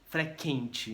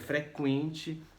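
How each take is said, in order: First: The u after the q is silent. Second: The u after the q is pronounced. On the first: The speaker calls it wrong. "não é sequência ou frequente" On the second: The speaker calls it right. "É frequente"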